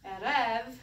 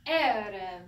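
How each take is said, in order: First: Erev with the accent on the first E; stress on first syllable. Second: Erev stressed on the opening E, louder; stress on first syllable. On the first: Teacher demonstrating Erev stressed on the first syllable. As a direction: lean on the start of Erev. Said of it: "the accent's on the first one". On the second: Teacher repeating Erev with first-syllable stress for class. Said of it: "The accent's first". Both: Shown as a demonstration.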